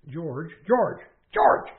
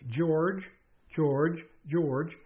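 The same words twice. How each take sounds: First: The voice is raised and loud. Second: The voice is calm and deliberate.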